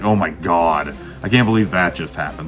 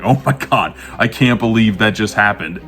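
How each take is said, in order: First: It sounds exasperated and eye-rolling. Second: It sounds amused and delighted.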